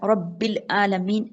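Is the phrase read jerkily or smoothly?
jerky. It is read in jerky, broken bursts. The speaker calls it wrong. "झटके नहीं देना, रब्बिल आलमीन ऐसे नहीं"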